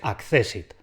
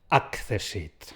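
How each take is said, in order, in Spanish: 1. El acento cae en la segunda sílaba. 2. El acento cae en la primera sílaba. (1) "pero es llana. Es accessit" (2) "no es accessit"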